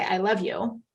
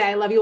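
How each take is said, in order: First: Tossed-off, unconvincing I love you; a throwaway line that earns only "Great."; offhand I love you. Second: Louder, heartfelt I love you; a hearty, wholehearted declaration; enthusiastic I love you. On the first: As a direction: say it like a chore, no feeling behind it. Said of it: "He's like, like you said, "Great". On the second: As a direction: say it like you mean it, wrapping her in a big hug. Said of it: "you give her a big hug". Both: Shown as a demonstration.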